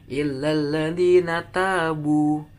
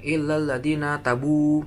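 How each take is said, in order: First: The long vowels are held long. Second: The long vowels are cut short. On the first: The speaker calls it right. "Harusnya kan illal ladina tabu" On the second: The speaker calls it wrong. "ada yang illal ladina tabu"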